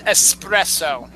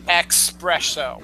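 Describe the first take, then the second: First: The word begins with an 'ess' sound. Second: The word begins with an 'ex' sound. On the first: The speaker calls it right. "but it's espresso" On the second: The speaker calls it wrong. "not espresso"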